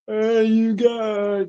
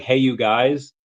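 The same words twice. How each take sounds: First: Slow, high drawn-out call; Sloth voice. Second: Said in the usual way. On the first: Retold or imitated. Answering a viewer, slow high Sloth impression. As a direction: stretch it out like Sloth. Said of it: "is what Sloth says in the Goonies". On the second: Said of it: "He's saying, like".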